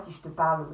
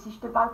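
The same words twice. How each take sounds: First: It is spoken in a lower belly voice. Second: It is spoken in a higher head voice. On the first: "voix plus qu'on va plutôt appeler de ventre ... si je te parle vraiment comme ça" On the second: "une voix de tête, c'est c'est si je te parle comme ça"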